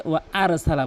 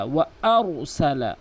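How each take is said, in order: First: ওয়া আরসালা with a thin, light r; ওয়া আরসালা, r left thin; common mispronunciation. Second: ওয়া আরসালা with a thick, rounded r; heavy Arabic r in ওয়া আরসালা; full heavy r. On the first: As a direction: say ওয়া আরসালা without rounding the r. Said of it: "দুইটি মারাত্মক লেভেলের ভুল". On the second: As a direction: slowly fill out the r in ওয়া আরসালা. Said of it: "রকে পুর করে বলতে হবে". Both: Shown as a demonstration.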